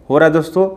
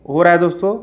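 The two takes are said the same way.

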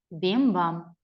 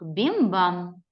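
First: Бім-бам whispered, fading like a distant bell; whispered bell echo. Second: Said in the usual way. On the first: Shown as a demonstration. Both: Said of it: "Кличе дзвіночок".

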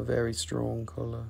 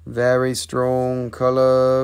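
First: Said in the usual way. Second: The word color stretched, slow and louder; slow emphatic repeat. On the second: Shown as a demonstration. Seller repeating it to viewers, slow and louder. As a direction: lean into color and drag the whole phrase out.

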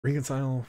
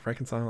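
First: "Reconcile" said as REE-kun-sile; long-E pronunciation. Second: "Reconcile" said as REK-un-sile; short-E pronunciation. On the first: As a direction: say "Reconcile" with a long ee in the first syllable. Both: Shown as a demonstration. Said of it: "English pronunciations are weird".

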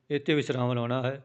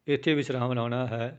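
Both takes have the same delivery.

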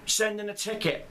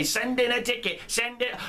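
First: Said in the usual way. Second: Higher, dismissive mimicry of "Send in a ticket"; mocking the devs' reply. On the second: Mimicking the devs' brush-off to players, mocking and higher. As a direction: parrot the stock answer with scorn. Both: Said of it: "that's the first thing you idiots are gonna say".

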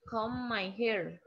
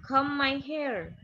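First: Said in the usual way. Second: "Comb my hair" said slowly, louder and higher; teacher modelling. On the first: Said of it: "Apa namanya?". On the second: Shown as a demonstration. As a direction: sound out "Comb my hair" slowly and loudly for the class to repeat.

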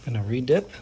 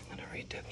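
First: Said in the usual way. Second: Hushed, unvoiced-sounding whisper; soft whispered aside. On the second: Real, not acted. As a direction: whisper it to yourself as you work. Drops into whisper while working.

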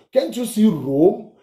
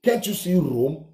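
First: Slow, higher mock of the leader's question; mocking Nnamdi Kanu, slower. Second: Lightly voiced mock of the leader; mild mock quote. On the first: The ranter mocks Kanu to his viewers, slow and higher. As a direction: drag out "Can't you see Rome?" in a taunting echo. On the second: The ranter first mocks Kanu to viewers, lightly voiced. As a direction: toss off "Can't you see Rome?" in a hint of his voice. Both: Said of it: "He said".

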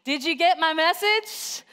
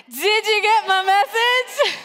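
First: Raised pitch, rallying call-out; leading the crowd. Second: High, slow, drawn-out shout; loud rallying shout. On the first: Preacher leading the congregation in the title, moderately raised. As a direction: prompt everyone to chant along, moderately lifted. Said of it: "Everybody say that with me". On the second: Preacher retrying with a quiet congregation, shouting loud and high. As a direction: belt it out to rouse a quiet crowd. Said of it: "That was so quiet. Let's try it again". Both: Shown as a demonstration.

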